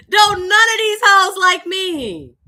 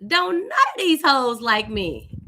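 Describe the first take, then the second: First: High, loud, slow emphatic punchline. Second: Slow, amused, laughing through it; laughing thought. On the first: Real, not acted. Storyteller repeating her joke to listeners, loud and high. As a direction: belt the line out to the audience. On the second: Retold or imitated. Teen realizing the church women dislike her, half laughing. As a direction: chuckle out the realization. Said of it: "I thought to myself".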